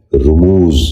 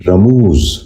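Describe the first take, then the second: First: رموز said "rumooz", short "u" after the r; correct pronunciation. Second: رموز said "ramooz", with an "a" after the r; mispronounced vowel. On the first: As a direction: open رموز with "ru", then long "mooz". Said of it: "درست تلفظ ہے". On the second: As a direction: open رموز with "ra" instead of "ru". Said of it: "یہ غلط تلفظ ہے". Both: Shown as a demonstration.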